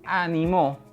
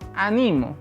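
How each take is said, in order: First: The stress is on the third syllable. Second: The stress is on the second syllable. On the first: It is the past-tense form meaning someone encouraged. "si yo decido cambiar el acento en la última sílaba" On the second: It is the present-tense form meaning I encourage. "si le cambio el sonido en el segundo, en la segunda sílaba"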